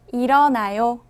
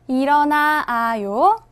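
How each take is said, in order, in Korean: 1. 두 개의 'a' 모음이 하나로 합쳐져요. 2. 'a' 모음을 두 번 연달아 발음해요. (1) "줄여서 일어나요가 됩니다" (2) "아, 아, 같아요. 두 번 나와요"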